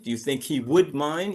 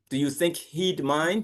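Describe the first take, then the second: First: 'He would' is said as two full words. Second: 'He would' is shortened to one syllable, he'd. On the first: "according to grammar, it would be he would mind" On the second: "just say the contraction"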